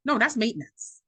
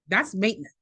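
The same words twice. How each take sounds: First: NO jumps high, then a firm fall on "that's maintenance"; emphatic correction. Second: Said in the usual way. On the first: Real, not acted. To the listener, firmly correcting self-care as maintenance. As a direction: hit "No" high and hard to correct her.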